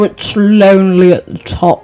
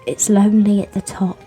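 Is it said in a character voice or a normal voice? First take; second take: character; normal. First: It is said in a put-on character voice. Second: It is said in the speaker's normal voice. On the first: "Or we do it in his voice" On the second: "we state"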